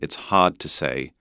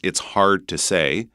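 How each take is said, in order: First: It is said in an English accent. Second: It is said in a North American accent.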